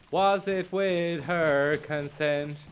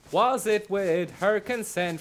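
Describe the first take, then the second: First: Slow, stress on "Was"; mock interrogator leaning on "Was"; pressing question. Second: Said in the usual way. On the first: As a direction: demand it slowly, hitting "Was".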